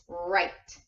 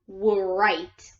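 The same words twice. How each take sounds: First: The word begins with an r sound. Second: The word begins with a w sound. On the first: The speaker calls it right. "You only hear the R sound, and it's right" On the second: The speaker calls it wrong. "It's not right"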